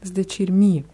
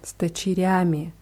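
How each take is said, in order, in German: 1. Das Wort endet auf eine kurze '-mi'-Silbe. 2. Das Wort endet auf eine volle '-yami'-Silbe. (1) "Man hört aber auch oft sdechirmi, also wie sditmi" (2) "nach der Regel würde es heißen с дочерями"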